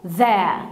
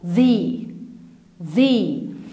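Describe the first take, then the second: First: The vowel is a short, weak uh sound. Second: The vowel is a long, clear ee sound. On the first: The speaker calls it wrong. "مش هننطقها ذا" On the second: The speaker calls it right. "لكن هننطقها ذي ذي"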